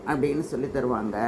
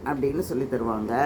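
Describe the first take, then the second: The two takes are said the same way.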